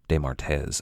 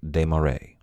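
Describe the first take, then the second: First: The name ends with a t and z sound. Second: The name ends with a vowel sound. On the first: The speaker calls it wrong. "Usually I've said it something like de Martez, and I knew that was incorrect" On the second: The speaker calls it right. "would have been pronounced Desmarais"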